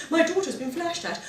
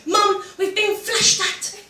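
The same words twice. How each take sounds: First: Mum's prim phone manner, a touch higher and softer; posh phone voice. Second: Higher, slow, drawn-out eager announcement; breathless kid excitement. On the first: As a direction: report it to the police in your best posh voice. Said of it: "it's just posh". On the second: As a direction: blurt it out to mum like the best news ever. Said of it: "You couldn't wait to tell your mum". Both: Retold or imitated.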